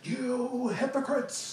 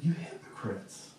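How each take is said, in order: First: It is shouted angrily. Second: It is said sadly, like a disappointed father.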